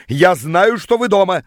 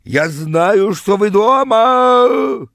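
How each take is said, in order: First: Moderately loud, higher yell; yelling through door. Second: High, loud, drawn-out bellow; hysterical yell. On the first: Rival shouting at the couple hiding inside, yelling. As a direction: call out accusingly through the door. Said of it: "стал орать он под дверью". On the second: Rival beating on the door, hysterical yelling. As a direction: scream it at the door, stretching the last word. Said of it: "он бился в истерике и в дверь". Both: A narrator's reading.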